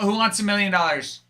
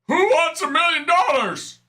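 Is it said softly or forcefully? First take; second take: softly; forcefully. First: It is said softly and casually. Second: It is said loudly and forcefully.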